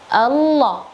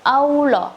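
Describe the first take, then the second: First: It starts with a clear tongue 'al' sound. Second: It starts with a rounded-lip 'au' sound. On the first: The speaker calls it right. "tidak menggunakan bibir au tapi al" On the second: The speaker calls it wrong. "bukan Allah"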